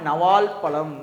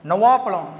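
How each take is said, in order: First: It is said as two words with an 'l'. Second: It is said as one word without an 'l'. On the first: This is the standard written form. "அதெல்லாம் எப்படி வரும்னா" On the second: This is the everyday spoken form. "நவாப்பழம்னு சொல்லுவோம்ல"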